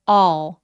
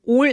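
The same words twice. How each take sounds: First: The vowel is drawn out long. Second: The vowel is short. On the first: The speaker calls it right. "더 길게 all" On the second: The speaker calls it wrong. "all 아니고요"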